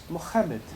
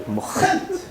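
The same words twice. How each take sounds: First: Said in the usual way. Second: A breathless, much higher disbelieving "Mohammed?"; shocked question. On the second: The host hears his guest's name, whispered disbelief. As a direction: gasp the name back in disbelief. You joke.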